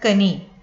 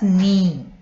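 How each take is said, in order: First: The K sound is heard at the start. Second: The K sound is silent at the start. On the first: The speaker calls it wrong. "we do not read this word as kani" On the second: The speaker calls it right. "K is not pronounced"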